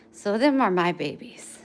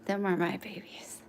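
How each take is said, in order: First: Said in the usual way. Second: Whispered, breathy repeat; soft whisper to the puppies. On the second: Real, not acted.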